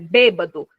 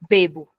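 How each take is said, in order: First: The word is said in full with three syllables. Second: The word is shortened to two syllables. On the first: It is the correct standard word. "A palavra correta é bêbado" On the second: It is the lazy everyday spoken form. "Todo mundo só fala o quê?"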